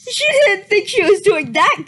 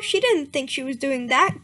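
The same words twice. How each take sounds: First: Louder, laughing incredulous reread; mocking disbelief. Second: Said in the usual way. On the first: Real, not acted. Reader mocking the fanfic line to her viewers, incredulous and loud. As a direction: repeat it as if it's absurd.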